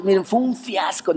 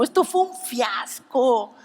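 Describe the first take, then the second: First: Said in the usual way. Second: Mock despair. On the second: Repeats fiasco line, acted.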